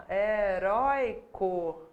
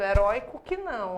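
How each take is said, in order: First: Heróico stretched very slowly, he-rói-co; slow demo. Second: Said in the usual way. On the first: Shown as a demonstration. Teacher spelling out Heróico slowly for the class. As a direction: draw out Heróico syllable by syllable. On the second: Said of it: "Herói tem acento".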